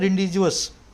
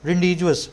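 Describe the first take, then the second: First: Every letter is sounded, ending in 'jus'. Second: The same.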